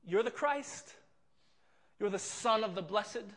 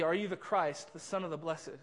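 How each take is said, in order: First: Mocking laugh. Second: Said in the usual way. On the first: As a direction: laugh at him as you ask it. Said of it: "emphatic kind of mocking phrase". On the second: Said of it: "He says this in the E S V".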